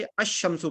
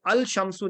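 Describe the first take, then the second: First: "अश शम्सु" with the l silent and sh doubled; correctly joined. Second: "अल शम्सु" with the l sounded before sh; wrongly separated. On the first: Teacher showing the Tajweed rule, "अश शम्सु" joined on sh. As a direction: merge the article into a long sh: "अश शम्सु". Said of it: "अश शम्सु पढ़ते हैं". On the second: Teacher showing what not to read, "अल शम्सु" with separate l. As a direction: keep an audible l in "अल शम्सु". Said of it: "इसको हम अल शम्सु नहीं पढ़ते". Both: Shown as a demonstration.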